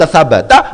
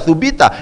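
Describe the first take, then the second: First: The first two vowels are a and a. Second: The first two vowels are u and i. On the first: The verb is active, meaning it stays firm. The speaker calls it right. "memungkinkan dibaca sabata" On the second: The verb is passive, meaning it was established. The speaker calls it wrong. "memungkinkan juga dibaca subita"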